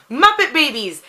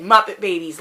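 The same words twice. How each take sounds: First: High, louder burst of joy; sudden happy memory; excited recall. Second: Said in the usual way. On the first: Real, not acted. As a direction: blurt it out as it comes to you. Suddenly remembers a favorite show.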